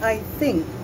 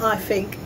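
First: The word 'think' begins with a th sound. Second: The word 'think' begins with an f sound. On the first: The speaker calls it right. "It's I think. RP English" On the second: The speaker calls it wrong. "It's not I think"

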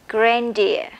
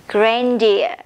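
Both takes have the same delivery.

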